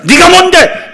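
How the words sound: It is said fiercely and forcefully.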